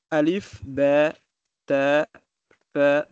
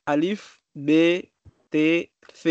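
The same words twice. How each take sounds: First: Alif, B, T, F said as "alif, bè, tè, thè"; open-vowel letter names. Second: Alif, B, T, F said as "alif, bé, té, fé"; letter names with é. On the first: Student showing teacher what he often hears, open-vowel letter names. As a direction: open è ending on B, T, F, each set apart. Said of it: "Mais souvent, j'attends". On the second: Student showing teacher how he learned the letters, letter names with é. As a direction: close é ending on B, T, F. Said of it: "on dit comme ça". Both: Shown as a demonstration.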